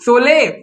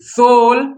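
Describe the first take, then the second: First: An extra vowel follows the final consonant. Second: The word ends on the bare consonant. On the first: The speaker calls it wrong. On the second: The speaker calls it right.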